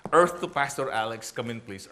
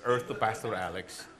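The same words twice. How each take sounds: First: Mock wife calling him back, louder, "Earth to Pastor Alex" as a teasing radio call. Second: The second "Earth to Pastor Alex" said lower and softer, a patient teasing nudge; softer repeat of the call. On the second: Retold or imitated. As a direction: repeat the wife's call quieter, half to himself. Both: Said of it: "My wife".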